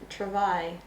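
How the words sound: It is said with a French pronunciation. "I want to say it like French travail"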